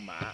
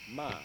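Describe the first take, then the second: First: The tone drops low with a heavy stop. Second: The tone is flat and level.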